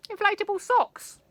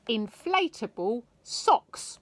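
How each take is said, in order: First: "Inflatable" thrown up high and loud; delighted high exclaim. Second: Said in the usual way. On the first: A narrator's reading. Narrator relishing the silliest invention, high and loud. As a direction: squeal "Inflatable socks" with glee.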